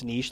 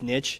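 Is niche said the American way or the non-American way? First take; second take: non-American; American. First: It is said with the non-American pronunciation. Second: It is said with the American pronunciation. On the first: "Everywhere else in the world it's niche" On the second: "Apparently in the U S it's niche"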